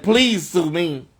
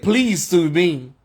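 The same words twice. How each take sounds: First: Drawn-out mocking challenge, weight on please; slow taunting dare. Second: 一語ずつゆっくり挑発するように; slow taunting dare. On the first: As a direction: dare them slowly, word by word. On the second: Retold or imitated. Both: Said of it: "That's why I said".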